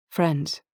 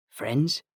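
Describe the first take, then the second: First: "Friends" falling, settled; agreeing. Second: "Friends" rising as a question. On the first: Targa accepting Anthony's truce, "Friends" agreeing. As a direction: confirm "Friends" with a falling, final tune. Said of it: "I agreed". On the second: Anthony offering Targa a truce, "Friends" questioning. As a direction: offer "Friends" tentatively, pitch lifting at the end. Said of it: "He raised his eyebrows". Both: A narrator's reading.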